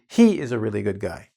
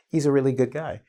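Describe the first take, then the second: First: The opening 'he is' is said in full. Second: The opening is reduced to a short 'e's' sound. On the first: "Instead of" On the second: "I'm not talking about Mister E"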